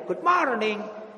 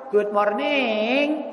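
First: Said in the usual way. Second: "Good morning." drawn out very slowly in a Javanese sung lilt; Javanese-melody English. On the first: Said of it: "Saya nggak tahu bahasa Inggrisnya". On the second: Shown as a demonstration. Preacher mocking English sung Javanese-style to the congregation. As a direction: stretch "Good morning." into a Javanese tembang tune. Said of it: "Dilakukan dengan bahasa Jawa".

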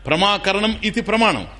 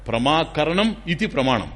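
First: Said in the usual way. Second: Slow, deliberate recitation of the sutra; slow recited definition. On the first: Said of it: "ఏదైతే జ్ఞానాన్ని ఇస్తుందో అది ప్రమాణం". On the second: Shown as a demonstration. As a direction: spell out ప్రమాకరణం ఇతి ప్రమాణం word by word. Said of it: "ప్రమా అంటే జ్ఞానం". (నెమ్మదిగా సూత్రం చదవడం)

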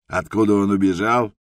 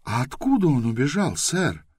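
First: Louder, grandly theatrical question on откуда; theatrical pathos. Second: Politely curious, lifted high at the end; polite question. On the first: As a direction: declaim it like a ham actor. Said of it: "с театральным пафосом вопросил охранник". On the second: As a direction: ask sweetly and politely. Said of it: "вежливо поинтересовалась Байта". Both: A narrator's reading.

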